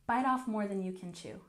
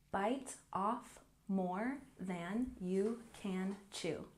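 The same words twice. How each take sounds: First: The phrase is said at a quicker pace. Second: The phrase is said very slowly. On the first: "And a little faster" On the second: "Let's do it really slow"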